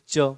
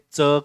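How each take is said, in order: First: The consonant has the learner's usual sound. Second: The consonant has the Marathi sound. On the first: The speaker calls it wrong. "आप इसको पढ़ते हो च। ये च नहीं है" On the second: The speaker calls it right. "इसको मराठी में च कहेंगे"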